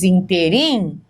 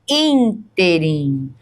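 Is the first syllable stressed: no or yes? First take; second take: no; yes. First: The stress is not on the first syllable. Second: The stress is on the first syllable. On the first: The speaker calls it wrong. "aí vai ficar inteirinho errado" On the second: The speaker calls it right. "é a antepenúltima sílaba que é a forte"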